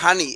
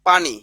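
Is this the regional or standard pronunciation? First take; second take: regional; standard. First: The word begins with an h sound. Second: The word begins with a p sound. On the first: "নোয়াখালীর মানুষ এটাকে বলে হানি" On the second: "অনেকে আমরা বলি যেমন পানি"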